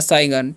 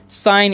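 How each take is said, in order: First: The g is sounded as a hard g. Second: The g is silent, said like sine. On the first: The speaker calls it wrong. "या साइगन" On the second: The speaker calls it right. "साइन पढ़ते हैं"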